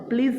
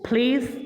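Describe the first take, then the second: First: The p is said without a puff of air. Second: The p is said with a puff of air. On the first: The speaker calls it wrong. "প্লিজ না হয়ে" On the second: The speaker calls it right. "হয়েছে প্লিজ"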